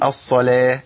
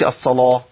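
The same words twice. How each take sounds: First: The L sound is light and thin. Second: The L sound is heavy and thickened. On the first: The speaker calls it right. "نقول الصلاه" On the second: The speaker calls it wrong. "ما نقولش الصلاه"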